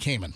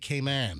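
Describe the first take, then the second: First: Cayman is said with an American pronunciation. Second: Cayman is said with the local island pronunciation. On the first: "Americanized, we say Grand Cayman" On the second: "Caymanians, they say Cayman"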